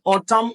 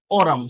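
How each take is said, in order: First: "autumn" with a true T, "AW-tum"; T variant. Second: "autumn" as "AW-rum", T tapped lightly; tapped variant. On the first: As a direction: keep the T clear in "autumn". (pwononse T a klè nan "autumn") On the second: (di "autumn" tankou "òdòm", T a lejè) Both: Shown as a demonstration. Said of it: "si vous voulez prononcer le comme ça".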